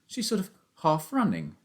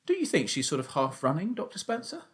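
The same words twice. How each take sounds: First: Said as a flat statement, tune falling at the end; boy telling his dad what he sees. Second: Same words asked with the tune rising on Spencer; boy appealing to the doctor; rising question. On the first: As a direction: state it, let running drop. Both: Acted. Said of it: "I said".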